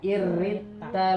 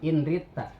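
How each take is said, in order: First: The n merges fully into a doubled r. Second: The n sound is kept before the r.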